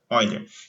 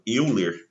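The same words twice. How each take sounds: First: The name is pronounced the original German way. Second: The name is pronounced the Brazilian Portuguese way. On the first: This follows the name's original language. "Mas é um matemático alemão, a pronúncia correta" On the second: This is how people commonly say it locally. "ou às vezes chamado Euler, né, aqui no Brasil"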